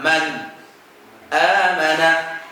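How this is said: A brief pause comes between the two words. The speaker calls it right. "cara baca sakatnya gimana?"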